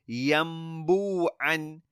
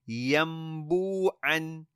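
First: An m sound comes before the b. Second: An m sound comes before the b.

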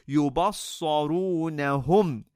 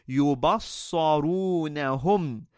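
Both takes have the same delivery.

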